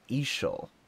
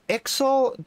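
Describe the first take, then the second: First: The middle consonant is a soft 'sh' sound. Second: The middle consonant is a clear 'ks' sound. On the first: "or is it like Ishal?" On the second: "Do you pronounce the X"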